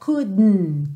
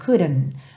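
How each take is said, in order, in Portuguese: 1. O D é solto direto no N. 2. O D é uma batidinha rápida. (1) "no inglês britânico muitas vezes a gente tem esse dn" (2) "ver esse D como rarara"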